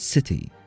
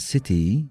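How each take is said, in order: First: The final vowel is short and clipped. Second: The final vowel is long and drawn out. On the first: "تقولها بسرعة، كأنه في حرف آي في الأخير" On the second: "ما تقولها city"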